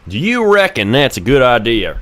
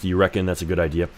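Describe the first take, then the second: First: It is said in a Western accent. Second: It is said in a plain accent.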